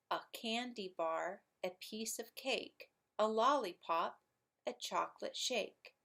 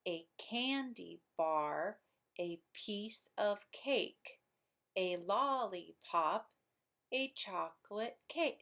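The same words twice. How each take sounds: First: A candy bar, a piece of cake, in a light singsong beat; iambic rhythm. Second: A candy bar, each syllable stretched to show the beat; slow scansion, leaning on CAN, BAR, PIECE, CAKE; slow iambic rhythm. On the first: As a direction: recite short lines, lilting on alternate syllables. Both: Shown as a demonstration. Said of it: "It would sound like this".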